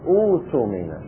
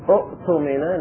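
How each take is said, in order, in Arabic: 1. يحل حرف المد الطويل محل الهمزة الثانية. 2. تُنطق همزة ثانية بعد الحركة الأولى. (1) "نقول أوتمن" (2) "والثانية ساكنة"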